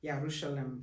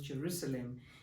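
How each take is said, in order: First: The word begins with a Y sound. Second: The word begins with a J sound. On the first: The speaker calls it right. "It should be" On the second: The speaker calls it wrong. "but it's called"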